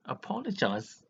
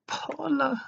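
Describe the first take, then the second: First: Said in the usual way. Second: "Apologize" flung out much higher and louder; outraged repeat. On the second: Real, not acted. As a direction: repeat "Apologize" as an indignant high cry. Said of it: "he didn't even apologize".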